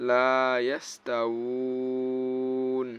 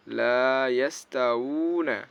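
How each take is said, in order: First: লা ইয়াস তা উ ন with a very long held uu closing on n; chanted recitation, উ drawn right out before the final ন; waqf stop, three-alif stretch. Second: লা ইয়াস তা উ না with a moderate uu and the final na sounded; chanted recitation, ending openly on না; recited without waqf. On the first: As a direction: hold the উ at length and stop on a vowelless ন. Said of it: "আর ওয়াকফ করলে". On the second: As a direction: carry উ on into a short, voiced না. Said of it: "ওয়াকফ না করলে।". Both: Shown as a demonstration.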